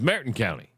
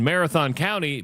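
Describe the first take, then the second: First: The 'th' sound in Marathon becomes a 't'. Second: The 'th' sound in Marathon is clearly pronounced. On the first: The speaker calls it wrong. "but it was Merritton County. ... the T H has a sound, people" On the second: The speaker calls it right. "And I lived in Marathon County"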